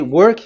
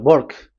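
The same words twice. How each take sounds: First: It is said with a plain W sound. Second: It is said Indian-style, W sounding like B.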